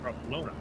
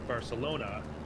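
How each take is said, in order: First: The c is said with a th sound. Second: The c is said with an s sound. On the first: "had a speech impediment and spoke with a lisp" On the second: "Instead of being able to say Barcelona"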